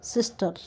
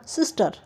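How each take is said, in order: First: सिस्टर said softly with the final r dropped; sister, soft r. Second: सिस्टर said with a clear r at the end; sister with final r. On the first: Teacher saying सिस्टर softly to students, final r dropped. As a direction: let the last r of सिस्टर fade away. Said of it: "रे last में है". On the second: Teacher showing students सिस्टर with its final r sounded. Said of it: "सिस्टर में हमारी अर की sound आई हुई है". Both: Shown as a demonstration.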